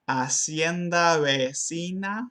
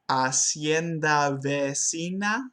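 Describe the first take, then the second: First: The v is made with both lips. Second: The v is made with lip and teeth. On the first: The speaker calls it right. "instead of" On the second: The speaker calls it wrong. "the voiced labiodental fricative, which does not exist in Spanish"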